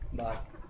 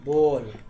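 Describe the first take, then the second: First: The vowel is a clear open 'aa' sound. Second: The vowel is a clear rounded 'o' sound. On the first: "बहुत सारे बच्चे इसको पढ़ते हैं ऐसा" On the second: "फिर कोई बच्चे लोग ऐसा पढ़ता है बॉल"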